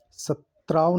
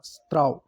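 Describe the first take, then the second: First: सत्राव said "sa-traav"; wrong pronunciation. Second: स्त्राव said "straav"; correct pronunciation. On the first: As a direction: add a vowel after s in सत्राव. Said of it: "सत्राव नहीं होता". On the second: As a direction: run s straight into tr in स्त्राव. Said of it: "ये शुद्ध है". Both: Shown as a demonstration.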